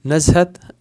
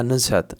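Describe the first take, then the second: First: नज़हत with a short a in the first syllable; first vowel of नज़हत open, not u; dialect variant. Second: नुज़हत with a short u in the first syllable; first vowel of नुज़हत rounded to u; dialect variant. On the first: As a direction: say नज़हत as "NAZ-hat". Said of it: "लहजों के हिसाब से थोड़ा सा फ़र्क". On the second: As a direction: say नुज़हत as "NUZ-hat". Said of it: "नुज़हत भी पढ़ेंगे". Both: Shown as a demonstration.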